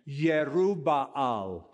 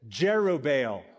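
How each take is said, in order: First: The name has a Hebrew-style pronunciation. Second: The name has an English, American-style pronunciation. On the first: "or the Hebrew pronunciation" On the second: "We're Americans, so we're going to say Jerubbaal"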